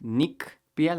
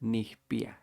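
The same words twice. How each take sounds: First: "nikpia" with a crisp hard K before the p. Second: "nijpia" with the k softened to a soft H. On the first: Teacher showing the old hard K in "nikpia" to students. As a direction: hit the hard K in "nikpia", nik-pia. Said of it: "it used to be pronounced". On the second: Teacher showing the Huasteca soft H in "nijpia" to students. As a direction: breathe a soft H in "nijpia", nih-pia. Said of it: "kinda sounds like an H". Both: Shown as a demonstration.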